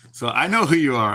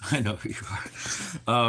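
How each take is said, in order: First: Said in the usual way. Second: Slow, much softer, with a laugh, like a mock stalker; teasing a chat viewer with mock menace; creepy hushed menace. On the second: Shown as a demonstration. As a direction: lean in and say it slow and spooky.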